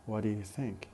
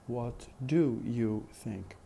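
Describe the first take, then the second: First: "What do you think?" linked, with do and you weak; connected speech. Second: "What do you think?" slowly, each word separate and full; careful pronunciation. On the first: Teacher asks students to listen to the question, in connected speech. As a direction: run "What do you think?" together, stressing what and think. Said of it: "unstress the auxiliary do". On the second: Teacher shows how we say it carefully, in careful pronunciation. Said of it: "careful pronunciation". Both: Shown as a demonstration.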